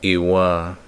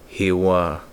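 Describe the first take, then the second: First: It starts with a glottal stop, no air flowing. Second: It starts with air flowing freely, no glottal stop. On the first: It means my heart. "If you placed a glottal stop at the beginning of that word" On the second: It means his, her, or its heart. "No glottal stop. Air is flowing at the beginning"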